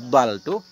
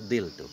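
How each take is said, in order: First: The first vowel is an open 'a' sound. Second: The first vowel is a close 'i' sound. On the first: "Dengan fathah fa" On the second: "dan kasrahnya fa"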